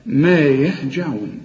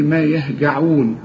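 First: ما يهجعون with a soft j in يهجعون, slowly recited; correct soft j. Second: ما يهجعون with a hard Egyptian g in يهجعون; wrong hard g. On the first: Teacher recites the correct soft j after the wrong one. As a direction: say يهجعون with the j of jam, drawn out. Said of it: "كل جيم في القرآن عطشها". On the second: Teacher imitates a student's wrong hard g in يهجعون. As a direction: say يهجعون with g as in go, the mistake. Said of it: "اوعى تقول لي". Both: Shown as a demonstration.

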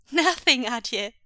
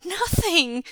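First: Put-on high, loud innocent little boy; feigned innocence. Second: Put-on high, loud child's denial; panicked yell back. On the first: Son at top of stairs to father, playing innocent. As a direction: insist on innocence in a raised child voice. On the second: Son yells down to father after a crash, panicked. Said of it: "Jingyi yelled back, a note of panic". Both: A narrator's reading.

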